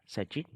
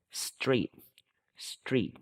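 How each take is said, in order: First: "street" said wrongly as sa-tri with an extra vowel; wrong pronunciation. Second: "Street" with a tight str cluster, no extra vowel; correct pronunciation. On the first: Teacher showing pupils the wrong way to say it. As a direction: mispronounce "street" as sa-treet. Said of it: "Mình không đọc là street nha". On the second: Teacher correcting pupils with the right model. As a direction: say "Street" as one syllable, str together. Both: Shown as a demonstration.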